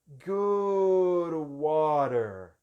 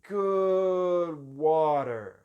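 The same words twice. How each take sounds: No difference in how they are said.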